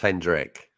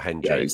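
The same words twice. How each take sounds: First: The name ends without an added s sound. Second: The name ends with an added s sound. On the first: The speaker calls it right. "And it's Hendrick" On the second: The speaker calls it wrong. "not Hendrick. he's not a gin"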